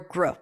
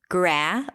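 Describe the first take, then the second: First: The syllable's vowel is reduced almost away. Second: The syllable has a full open vowel. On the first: The speaker calls it wrong. "If I reduce it, it just sounds rushed and unclear" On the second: The speaker calls it right. "We need to have a vowel there"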